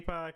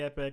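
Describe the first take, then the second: First: The second syllable sounds like 'pock'. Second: The second syllable sounds like 'pick'. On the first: This is the habitual childhood pronunciation. The speaker calls it wrong. "I've always called it the epoch" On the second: This is the pronunciation believed correct. The speaker calls it right. "I believe it's epic"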